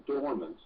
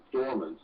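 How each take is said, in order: First: Said in the usual way. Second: Dormant said alone, leaned on with a falling tune; stress on dormant. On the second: Shown as a demonstration. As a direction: hit the word dormant. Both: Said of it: "I emphasize that word".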